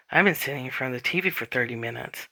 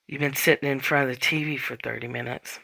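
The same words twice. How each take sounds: First: Fast, rushed dawning realization; sudden realization. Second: Said in the usual way. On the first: Retold or imitated. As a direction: blurt it out as it dawns on you. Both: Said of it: "that moment of".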